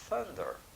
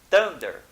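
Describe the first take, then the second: First: The first sound is a soft, breathy th. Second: The first sound is harsh, from the throat. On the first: The speaker calls it right. "Não, é thunder. Olha, veja a suavidade" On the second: The speaker calls it wrong. "não é um som gutural"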